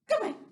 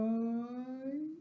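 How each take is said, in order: First: It is said very fast. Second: It is said very slowly.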